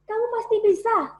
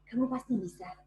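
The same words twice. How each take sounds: First: It is said with moderate vocal power. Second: It is said softly with little vocal power.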